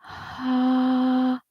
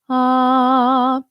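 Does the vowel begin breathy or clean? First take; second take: breathy; clean. First: A puff of breath comes before the vowel. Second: The vowel starts cleanly with no breath first. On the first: "breathy onset, where our airflow or our breath precedes our vocal fold closure" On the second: "balanced, which is our default"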